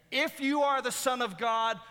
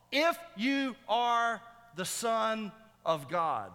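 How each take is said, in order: First: High, loud taunt at normal speed; mocking challenge. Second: Slow, high, word-by-word taunt; mocking challenge. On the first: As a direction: fling it out as a raised-voice jeer. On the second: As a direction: hammer each word apart in a raised voice. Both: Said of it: "this mocking statement".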